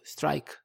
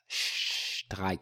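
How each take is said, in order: First: It begins with a plain s sound. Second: It begins with an sh sound.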